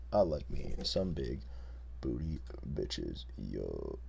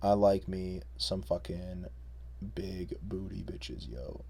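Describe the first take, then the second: First: Very low, slow mumbling bro; even deeper bro voice. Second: Deep bro voice. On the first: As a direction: drop it lower and slower. Repeat even lower. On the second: Low mock bro voice. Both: Pretend.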